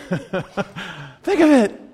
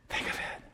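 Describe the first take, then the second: First: Raised voice, punched at the end; exclaimed pulpit appeal; emphatic urging. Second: Whispered, intimate urging; barely voiced pulpit aside; hushed whisper. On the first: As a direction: urge the crowd out loud. Preacher urges crowd, then repeats hushed. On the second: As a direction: drop to a whisper to let it sink in. Same words repeated hushed. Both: Real, not acted.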